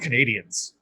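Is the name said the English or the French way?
English. The name is said with English pronunciation. "I just called them Canadians"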